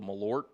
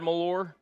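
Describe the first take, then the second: First: The word ends with a T sound. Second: The word ends without a T sound. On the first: The speaker calls it right. "is it pronounced with a T?" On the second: The speaker calls it wrong. "Have I been saying it wrong?"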